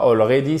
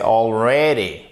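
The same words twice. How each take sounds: First: "already" said the wrong way, with a French-style flat stress; botched "already", syllables evenly weighted; mispronounced already. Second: "already" with the stress on "rea", said as an open "è"; "already" stressed clearly on its second syllable; correct tonic stress. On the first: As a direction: say "already" as a learner's mistake, without the English stress. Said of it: "Et c'est pas". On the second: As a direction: hit the middle of "already": al-RE-dy. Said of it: "Faites bien l'accent tonique ici et c'est un". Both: Shown as a demonstration.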